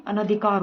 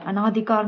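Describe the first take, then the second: First: अनधिकार with short "na"; correct pronunciation. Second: अनाधिकार with long "naa"; wrong pronunciation. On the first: (अनधिकार में "न" छोटा बोलें) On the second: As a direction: say अनाधिकार with aa after n. (अनाधिकार में "ना" लंबा बोलें) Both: Shown as a demonstration. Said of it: "अनधिकार होता है".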